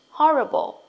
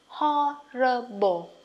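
First: Said in the usual way. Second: Horrible drawn out slowly, syllable by syllable; slow model of Horrible. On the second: Shown as a demonstration. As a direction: stretch Horrible for learners. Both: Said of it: "Đọc nhanh nè".

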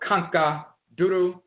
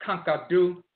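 First: "Kanka Duru" as KAHN-kah DOO-roo; older full form. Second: "Kanka Du" as KAHN-kah DOO; Akwamu short form. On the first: Lecturer tracing the word, "Kanka Duru" as KAHN-kah DOO-roo. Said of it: "became Kanka Du". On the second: Lecturer tracing the word, "Kanka Du" as KAHN-kah DOO. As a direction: drop any roo after "Kanka Du". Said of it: "became Kanka Du and Akwamu". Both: Shown as a demonstration.

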